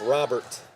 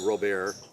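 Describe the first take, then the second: First: The name is pronounced the English way. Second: The name is pronounced the French way. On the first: "I think it's Robert" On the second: "that real French pronunciation"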